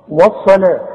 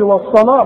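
First: "والصلاة" opening on a thin "wa"; light waw. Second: "والصلاة" with thick, rounded "wo"; wrong heavy waw. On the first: Teacher models word for pupil, light waw. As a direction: keep the w unrounded and light in "والصلاة". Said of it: "الواو دائمًا مرققة". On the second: Teacher warns pupil against error, heavy waw. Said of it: "اوعى تقول لي". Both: Shown as a demonstration.

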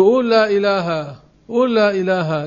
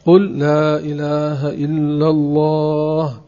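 First: Higher, repeated "قول لا إله" cut off after "إله"; wrong way to teach. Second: "قل لا إله إلا الله" slowly, in full, unbroken; right way to teach. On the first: Retold or imitated. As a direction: mimic the careless teacher, stopping at "إله". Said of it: "مثل بعض الناس ... يقولوا له". ("قول لا إله" أعلى ومقطوعة عند "إله") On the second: Shown as a demonstration. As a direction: teach it slowly and finish the whole phrase. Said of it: "ثم يقال له". ("قل لا إله إلا الله" ببطء وكاملة دون انقطاع)

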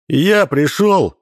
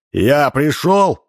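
First: Я stressed, slow and high. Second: Пришёл stressed, slow and high. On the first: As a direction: punch the word Я. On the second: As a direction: land hard on пришёл. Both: Acted.

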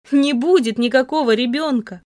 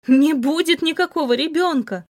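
First: Sobbing. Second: Crying out. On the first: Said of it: "Сквозь душившие меня рыдания". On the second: Heroine screams at her cold lover, desperate cry. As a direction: shout it through tears. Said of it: "закричала я". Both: Acted.

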